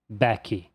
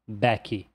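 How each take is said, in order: The two takes are said the same way.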